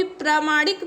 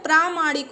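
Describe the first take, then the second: First: प्रामाणिक with first vowel cut short, pra-maanik; wrong pronunciation. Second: प्रामाणिक with a long 'praa'; correct pronunciation. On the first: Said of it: "नहीं होता है". (प्रामाणिक को गलत रूप 'प्रमाणिक' में बोलें) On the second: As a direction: hold the first vowel of प्रामाणिक. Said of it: "क्या होता है". (प्रामाणिक में 'प्रा' लंबा बोलें) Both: Shown as a demonstration.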